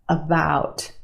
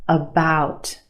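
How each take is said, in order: The two takes are said the same way.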